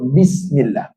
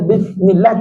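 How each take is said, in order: First: The letters are articulated precisely and carefully. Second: The letters are articulated loosely and imprecisely. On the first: The speaker calls it right. "Yang tepat" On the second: The speaker calls it wrong. "tak tepat"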